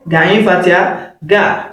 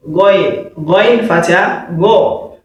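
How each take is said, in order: First: "Gain Fatiha ga" with open ga sounds, slowly; wrong letter drill. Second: "going, Fatiha, go" with rounded gho sounds; correct letter drill. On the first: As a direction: demonstrate the mistaken "Gain Fatiha ga". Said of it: "You will not say gain Fatiha ga". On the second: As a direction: model "going, Fatiha, go" as Arabic Ghayn with fatha. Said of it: "correct pronunciation is what". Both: Shown as a demonstration.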